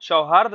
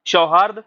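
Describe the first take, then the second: No difference in how they are said.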